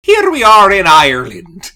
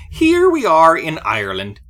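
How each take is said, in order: First: Announcer. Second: Said in the usual way. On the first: Acted. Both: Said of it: "break the tension with that".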